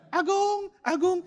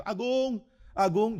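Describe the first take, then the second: First: Very high squawked "Agung"; parrot imitating. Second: Higher call of "Agung" across the house; calling out a name. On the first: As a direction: copy the call like a cockatoo. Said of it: "Jadi dia lihat saya". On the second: Retold or imitated. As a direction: call your friend from outside. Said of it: "saya panggil".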